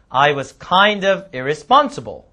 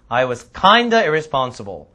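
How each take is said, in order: First: It is said slowly, with kind of separated. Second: It is said fast, with kind of reduced. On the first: "처음엔 천천히 한번 읽어보겠습니다" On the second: "좀 빨리"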